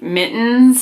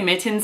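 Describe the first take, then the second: First: The middle consonant is slurred like a D. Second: The middle consonant is a crisp T. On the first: "slur the two T's together and make more of a D noise" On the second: "I have a lot of diction when I say them"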